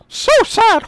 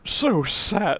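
First: It is said in a Mickey Mouse voice. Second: It is said in a different character voice.

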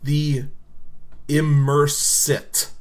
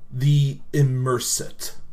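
First: The name is said slowly and deliberately. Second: The name is said at normal speed.

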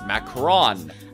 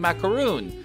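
First: The last syllable has a short 'o' vowel. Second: The last syllable has a long 'oo' vowel. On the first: The speaker calls it right. "It's macaron" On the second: The speaker calls it wrong. "how I've been pronouncing macaroon"

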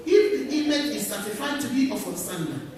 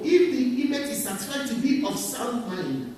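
No difference in how they are said.

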